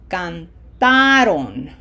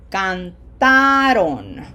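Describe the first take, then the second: First: The stress is on the middle syllable. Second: The stress is on the middle syllable.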